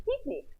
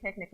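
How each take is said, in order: First: Picnic as "PEEK-neek", pitched high; higher, softer picnic said as "peek-neek"; Hebrew pronunciation. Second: Said in the usual way. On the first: Shown as a demonstration. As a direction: relish picnic with Israeli ee vowels. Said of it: "one of my favorite Hebrew words". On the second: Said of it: "That's how you say picnic in Hebrew".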